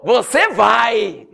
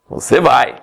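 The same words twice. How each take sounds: First: Slow, laughing through the words; preacher laughing at his own joke. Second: Said in the usual way. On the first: Real, not acted. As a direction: let the laugh take over the punchline.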